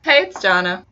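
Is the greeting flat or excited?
excited. The greeting is said with lively excitement.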